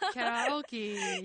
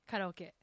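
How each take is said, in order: First: It is said as English kya-ra-oh-kee. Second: It is said as Japanese ka-ra-o-ke.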